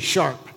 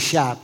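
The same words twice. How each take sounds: First: The word is said in an imitating, put-on voice. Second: The word is said in the speaker's plain voice. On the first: This is how the father said it. "He would say sharp" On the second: This is not how the father said it. "he wouldn't say sharp"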